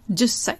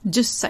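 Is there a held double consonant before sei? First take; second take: yes; yes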